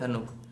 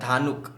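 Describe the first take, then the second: First: The first vowel is short, 'dha'. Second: The first vowel is long, 'dhaa'. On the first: This is how people read the English spelling. "जब English में लिखते हैं ना... तो pronounce हो जाता है धनुक" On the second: This is how the name is spelled in Hindi. "Hindi में अगर लिखेगा, ध में आ की मात्रा"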